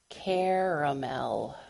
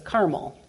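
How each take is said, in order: First: The word is said with its middle vowel. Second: The word is said without its middle vowel. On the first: This is the refined way of saying it. "how the upper crust in my hometown pronounced it" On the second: This is the common way of saying it. "to everybody else, it was caramel, which led to the misconception about the order of Carmelites"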